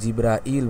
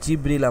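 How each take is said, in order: First: The name is said longer, as Jibrail. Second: The name is said short, as Jibril. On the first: The speaker calls it right. "জিবরাইল বলবো।" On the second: The speaker calls it wrong. "জিবরিল আমরা বলি বাংলায়, এটা শুদ্ধ উচ্চারণ নয়।"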